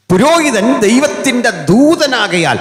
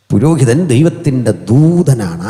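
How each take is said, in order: First: Booming preaching. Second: Said in the usual way. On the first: Acted. Preacher's emphatic first statement.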